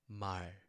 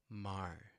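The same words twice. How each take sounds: First: The word ends cleanly on the final consonant. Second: The same.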